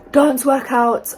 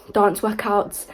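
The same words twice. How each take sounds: First: "dance" stretched slow, louder and higher, falling; emphatic repeat. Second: Said in the usual way. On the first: Shown as a demonstration. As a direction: lean hard into "dance", drawn out.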